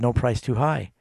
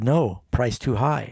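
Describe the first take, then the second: First: It is said as one phrase without a pause. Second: There is a pause after "no".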